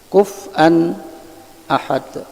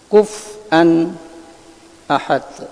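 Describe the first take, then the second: First: A brief break comes before the glottal stop. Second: The same.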